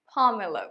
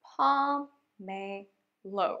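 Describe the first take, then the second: First: Said in the usual way. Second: pomelo split very slowly as "po... me... lo"; syllable by syllable. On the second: Shown as a demonstration. Teacher modelling a new word for learners, syllable by syllable. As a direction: stretch each syllable of pomelo with pauses between.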